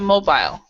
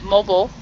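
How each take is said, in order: First: It is said in a British accent. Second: It is said in an American accent. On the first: "but in British English, it's a mobile" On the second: "In um, American English, we will pronounce it mobile"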